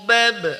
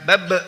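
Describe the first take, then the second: First: The final b has a soft, light echo. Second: The final b ends with a hard glottal catch. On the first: The speaker calls it right. "Pantulannya lembut saja ya" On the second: The speaker calls it wrong. "jangan bab seperti itu menambah hamzah sukun jadinya"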